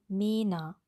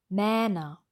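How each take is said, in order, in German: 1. Der erste Vokal ist ein langes geschlossenes e. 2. Der erste Vokal ist ein langes offenes ä. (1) "im Kontrast üben mit dem langen E" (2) "Mähner wollen wir auch nicht"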